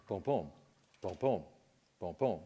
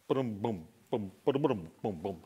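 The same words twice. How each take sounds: First: Soft, even booms like a normal pulse; quiet, evenly spaced heartbeat booms; steady heartbeat sounds. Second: Booms tumbling unevenly, like bowling balls rolling in a trunk; uneven, clattering heartbeat booms; irregular heartbeat sounds. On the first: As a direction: tap out a calm, regular beat with your voice. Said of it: "That's a normal beat". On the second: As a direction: make the beat lurch and stumble. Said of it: "three bowling balls in the trunk". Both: Shown as a demonstration.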